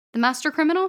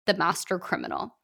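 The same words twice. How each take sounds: First: High, louder rising disbelief on Criminal; incredulous question. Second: Said in the usual way. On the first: Acted. Author reading the name on his resume, high incredulous question.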